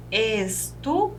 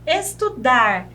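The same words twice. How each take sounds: First: Said in the usual way. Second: Estudar, slow, leaning on -dar; stress on the last syllable. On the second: Shown as a demonstration. Teacher showing students the strong last syllable. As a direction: hit the final -dar of estudar. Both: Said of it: "Perceberam que é mais forte?".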